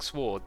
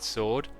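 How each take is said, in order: First: A W sound is heard at the start. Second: The W sound is silent. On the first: This is how the group says it. "they say it that way" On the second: This is how the speaker normally says it. "I don't pronounce the W"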